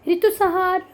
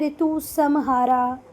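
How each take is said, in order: First: The name ends on a consonant, no final vowel. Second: The name ends with an added 'a' vowel. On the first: The speaker calls it right. "नाम तो नाम होते हैं बेटा" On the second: The speaker calls it wrong. "इसको आप लोग ऐसे भी पढ़ सकते हैं ... पर ये गलत है"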